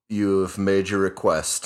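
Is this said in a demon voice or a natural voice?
natural. It is said in the speaker's natural voice. The speaker calls it wrong.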